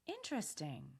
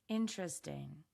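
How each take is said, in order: First: It is said with a curious tone. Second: It is said with a hesitant tone. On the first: "Say this with curiosity" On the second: "Now say it with hesitation"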